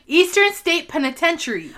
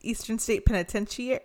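First: Penitentiary as "peni-TEN-shuh-ree", higher; correct pronunciation. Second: Penitentiary ending in "shee-air", rising; failed repeat, Penitentiary as "peni-ten-shee-air"; mispronounced. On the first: Shown as a demonstration. Co-host correcting her friend's pronunciation, correct pronunciation. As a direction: model Penitentiary clearly, ending "shuh-ree". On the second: Real, not acted. Host failing to copy her co-host's correction, mispronounced. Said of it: "I kept saying it wrong".

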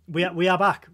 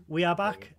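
First: We are back called out loud and high; loud announcement. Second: Said in the usual way. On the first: Shown as a demonstration. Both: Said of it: "repeated announcement".

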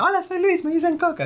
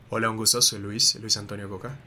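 First: Put-on much higher, squeaky kid-like greeting; squeaky childish voice. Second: Lower, slower voice. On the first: Introducing himself at university, high squeaky voice. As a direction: squeal it like a nervous boy. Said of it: "con esa voz así súper rechillante". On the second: Shown as a demonstration. Dance director's advice, introducing himself lower and slower. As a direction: say it calm and grounded. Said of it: "tengo que hacer la voz más grave, un poquito más lento".

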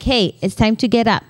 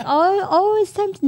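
First: Said in the usual way. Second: High, cooing mock wake-up; not like this, sugary. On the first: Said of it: "no, but it's like". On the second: Shown as a demonstration. Mom showing how not to wake kids, cooing. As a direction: coo it high, mocking an over-gentle parent. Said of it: "No, it's not, not like".

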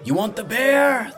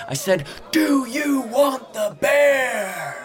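First: High, loud ringmaster's bellow; drawn-out showman's shout. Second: Huge, high bellow, stretched very slow; full-force showman's roar. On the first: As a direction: work up the crowd with a bellowed question. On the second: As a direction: demand a louder answer from the crowd, dragging out each word. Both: A narrator's reading. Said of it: "the ringmaster bellowed".

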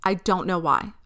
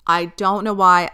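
First: Said in the usual way. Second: "why" pressed louder as the key word; "why" stressed, a little louder than the first take. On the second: Shown as a demonstration. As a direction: lean hard into "why".

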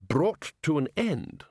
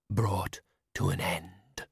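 First: Said in the usual way. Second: Slow, low, toneless spectre; dull ghost. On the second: A narrator's reading. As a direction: drone it, lifeless and slow. The spectre speaking.

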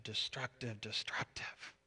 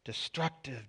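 First: Fading to a bare whisper, repeating the word destructive; whispered dad. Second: Muttering dad. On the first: Dad whispering over the scratched car, fading whisper. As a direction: whisper destructive, destructive, head down in dismay. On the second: Dad finding a scratch on the car, muttering. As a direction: mutter it under your breath, head ducked. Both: Retold or imitated. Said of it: "duck his head and go".

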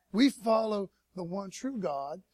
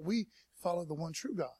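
First: "We follow the one true God" slow and weighty; emphatic repeat. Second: Said in the usual way. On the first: Real, not acted. Preacher to congregation on coexisting faiths, slow emphatic declaration. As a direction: drive home "one true God", drawn out and firm.

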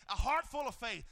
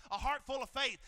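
The two takes are said the same way.

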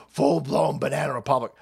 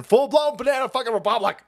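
First: Said in the usual way. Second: Raised-pitch exclamation of outrage; exasperated outburst. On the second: Real, not acted. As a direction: burst out in exasperation, pitch jumping up. Outburst, then calmer repeat.

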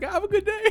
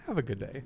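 First: Very high, loud sing-song "Have a good day"; mock-cheery farewell. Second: "Have a good day" sighed out softer; sighed farewell. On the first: Clerk to an angry customer walking out, fake-cheery sing-song. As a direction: sweetly wish "Have a good day" to someone storming out. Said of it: "My favorite thing to do". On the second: Pretend. Clerk jokingly sighing goodbye to a customer, softer and resigned. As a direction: let "Have a good day" fall out on a sigh. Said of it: "You're breathtaking".

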